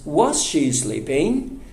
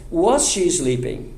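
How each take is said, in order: First: Slow "Was she sleeping?" climbing at the end; rising intonation. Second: "Was she sleeping?" dropping at the end like a statement; wrong falling intonation. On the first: Teacher corrects to the proper yes-no question, rising. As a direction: lift "sleeping" into a clear question. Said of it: "Mas a entonação é subindo". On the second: Teacher shows how not to ask it, falling. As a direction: let "sleeping" fall away, no questioning lift. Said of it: "Eu não perguntaria". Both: Shown as a demonstration.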